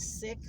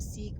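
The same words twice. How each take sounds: First: The word sounds like 'sick', with a short vowel. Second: The word sounds like 'seek', with a long vowel. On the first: The speaker calls it right. "the proper pronunciation is Sikh" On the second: The speaker calls it wrong. "a lot of people call them Sikh"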